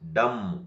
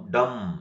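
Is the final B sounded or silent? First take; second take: silent; silent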